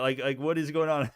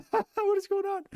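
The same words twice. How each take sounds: First: Said in the usual way. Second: High, slow, laughing through it. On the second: Real, not acted. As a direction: laugh out the question. Repeats question, laughing.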